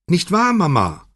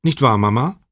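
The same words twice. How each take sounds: First: Much higher, insistent, falling at the end; Chiara, more shrill. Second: Said in the usual way. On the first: A narrator's reading. Daughter presses her mother to agree, shriller. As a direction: press the question in a shriller pitch. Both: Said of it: "wiederholte Chiara etwas schriller".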